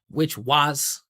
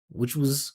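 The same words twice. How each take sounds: First: The word was is long, loud and pitched up. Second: The word was is short, quiet and low. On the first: The speaker calls it wrong. "he puts so much attention on it" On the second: The speaker calls it right. "Just make it small, vibrating down here"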